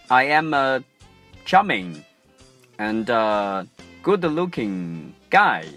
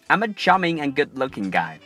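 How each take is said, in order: First: The sentence is broken up by many pauses. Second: The sentence flows smoothly without pauses. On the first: The speaker calls it wrong. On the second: The speaker calls it right.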